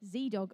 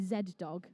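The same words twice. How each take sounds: First: It is said in an American accent. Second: It is said in a posh English accent. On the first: It has more street factor. "that was so American" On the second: It sounds a bit too corporate. "with my posh English accent"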